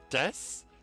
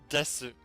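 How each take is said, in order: First: The final u vowel is dropped completely. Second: The final u vowel is pronounced in full. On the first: "usually we say des" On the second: "it's written desu"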